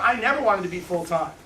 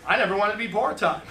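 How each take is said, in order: First: "never" पर ज़ोर; stress on never. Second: "never" पर ज़ोर, falling tune; stress on never. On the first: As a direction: lean on "never". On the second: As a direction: lean on "never" and let it fall. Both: Shown as a demonstration.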